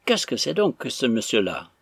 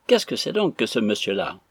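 First: Understated severe question; stern. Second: Lightly mimicked question; mocking echo. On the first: Arthur asks Affrey about the stranger, stern. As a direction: demand an answer with restrained indignation. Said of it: "d'un ton sévère Arthur". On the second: Stranger repeats Arthur's question to Affrey, mocking. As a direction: parrot the question after laughing. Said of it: "répéta l'inconnu à son tour". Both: A narrator's reading.

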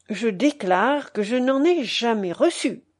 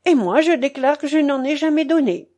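First: Self-satisfied declaration, lightly acted; fatuous exclamation. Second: Higher-pitched, artless declaration; naive protest. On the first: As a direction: declare it with smug, measured self-importance. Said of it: "s'écria fatuitement monsieur de Richelieu". (exclamation pleine de fatuité) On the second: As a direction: protest innocently, pitched up from the start. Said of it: "Cette naïveté de madame de Falaris". (protestation naïve, voix plus aiguë) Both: A narrator's reading.

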